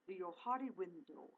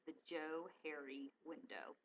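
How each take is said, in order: First: The name is said with a put-on foreign accent. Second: The name is said plainly as two English names. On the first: It makes the name sound exotic and mystical. The speaker calls it wrong. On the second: The name joins two first names. The speaker calls it right. "So it's really the Joe Harry window"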